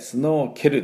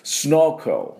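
First: A full E vowel sounds between K and L. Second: The K runs straight into the L. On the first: The speaker calls it wrong. "スノーケルではなくて" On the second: The speaker calls it right. "このE の音ほとんど出しません"

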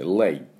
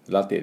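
First: It is said as one syllable with silent e. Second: It is said as two syllables, ra-te. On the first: The speaker calls it right. "サイレントE ですね" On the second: The speaker calls it wrong. "ラテじゃなくて"

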